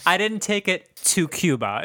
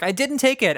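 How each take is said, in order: First: Slower, higher, with "to Cuba" set apart and stressed; clarified denial. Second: High-pitched protest of innocence; imitated denial. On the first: Retold or imitated. Storyteller clarifying grandmother's excuse, pointed stress on "to Cuba". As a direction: lean slowly on "to Cuba" as the loophole. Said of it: "is what she meant". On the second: Grandmother accused over the missing bag, protesting innocence. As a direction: mimic a grandmother insisting she is blameless. Grandmother denying theft in story.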